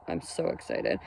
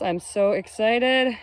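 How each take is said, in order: First: A secret little thrill, whispered; excited whisper. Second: Said in the usual way. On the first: Real, not acted. Repeats excited line as whisper.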